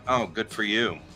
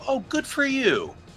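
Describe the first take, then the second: First: It sounds flat and sarcastic. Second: It sounds sincere and warmly pleased.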